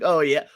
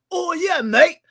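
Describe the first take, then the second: First: Said in the usual way. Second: Very high, loud British caricature; mock British accent. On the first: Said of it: "anybody from the U K, they're like". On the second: Host imitating someone from the UK, mock British accent. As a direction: put on an over-the-top British voice. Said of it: "if you ask anybody from the U K".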